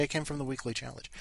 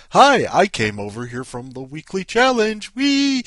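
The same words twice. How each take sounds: First: Said in the usual way. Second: Loud, giddy call ending in a high squeal; hammed-up excited visitor announcing themselves; gushing commenter. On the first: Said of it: "Just say". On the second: Host voicing a comment on someone's link, loudly giddy. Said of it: "put in the comments".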